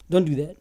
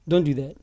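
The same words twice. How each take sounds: The two takes are said the same way.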